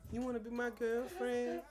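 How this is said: It is said in a soft, sweet voice. The asker sounds gentle and eager. The speaker calls it wrong. "don't be making me sound sweet like that"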